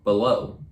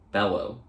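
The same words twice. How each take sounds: First: "Bellow" misread like "below", stressed on the second syllable; misread pronunciation. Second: "Bellow" as BEL-oh, stressed on the first syllable; corrected pronunciation. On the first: Misread, then redone after "Hmm. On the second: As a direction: say "Bellow" with an open "bel", rhyming with "yellow". Corrected retake of the misread word. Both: Real, not acted.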